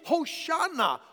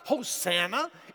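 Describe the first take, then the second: First: The middle consonant is an sh sound. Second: The middle consonant is a plain s sound. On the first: The speaker calls it right. "it's Hoshana" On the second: The speaker calls it wrong. "you Americans, you call it Hosanna. It's not Hosanna"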